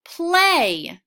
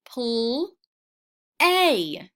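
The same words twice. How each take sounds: First: "Play" blended, a bit higher and louder; blended word. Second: "Pl-" then "A" said as separate sounds. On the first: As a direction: put "Play" together as one word. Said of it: "Let's put it all together". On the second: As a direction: break "play" into "Pl-" and "A". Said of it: "Say each sound with me". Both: Shown as a demonstration.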